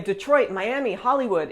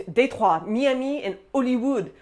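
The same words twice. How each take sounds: First: Said in the usual way. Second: "Detroit, Miami, Hollywood" the French way, "day-trwah, mya-mee"; French accent. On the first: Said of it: "say English words in French". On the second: Shown as a demonstration. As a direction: list the places with French pronunciation. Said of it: "say them with the French accent".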